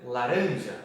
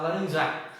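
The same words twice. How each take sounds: First: Laranja with a lengthened, stressed middle RAN; correct stress on RAN. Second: Laranjar with the ending JAR punched; wrong stress on last syllable. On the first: Teacher gives students the correct word, stressing RAN in laranja. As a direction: lean firmly on the ran in laranja. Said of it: "A sílaba tônica tem que ser ali no ram". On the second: Teacher shows another forbidden version, stressing the end of laranjar. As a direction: misplace the stress onto the final jar. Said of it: "Também não posso falar laranjar". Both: Shown as a demonstration.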